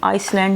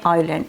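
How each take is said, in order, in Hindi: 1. इस शब्द में s की आवाज़ बोली जाती है। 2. इस शब्द में s साइलेंट है। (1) "आइसलैंड नहीं पढ़ते" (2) "इसको पढ़ते हैं आइलैंड"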